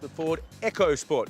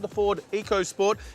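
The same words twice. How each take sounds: First: Eco sounds like the word echo. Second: Eco does not sound like the word echo. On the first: The speaker calls it right. "It's actually pronounced the Ford EcoSport. ... make sure you get the Echo right" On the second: The speaker calls it wrong. "this here is not called the Ford EcoSport"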